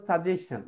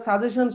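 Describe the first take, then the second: First: সাজেশন as "sa-jes-chen", with a ch ending; actual pronunciation. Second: সাজেশন as "sa-je-shon", plain sh ending; common mistaken pronunciation. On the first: Teacher gives the actual pronunciation, "sa-jes-chen". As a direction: end সাজেশন on "-chen" in place of "-shon". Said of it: "কিন্তু actually". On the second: Teacher shows how we learnt it, "sa-je-shon". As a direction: say সাজেশন the local way, without ch. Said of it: "আমরা সাজেশন শিখছি". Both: Shown as a demonstration.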